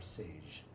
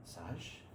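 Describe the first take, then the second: First: "sage" said the English way, like the herb, ending in a soft zh; "sage" with an English long a: say-zh. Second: "Sage" said the French way, short open a: sahzh. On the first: (English pronunciation of "sage") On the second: (French pronunciation of "Sage") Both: Shown as a demonstration. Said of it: "Sage or sage?".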